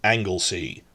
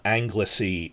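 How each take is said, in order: First: "Anglesey" said as ANGLE-sea; corrected pronunciation. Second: "Anglesey" with three syllables, ANG-luh-see; wrong pronunciation. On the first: Teacher correcting the island's name, angle-sea pronunciation. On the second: Teacher showing how not to say the island, slurred pronunciation. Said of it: "It's not Anglesey". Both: Shown as a demonstration.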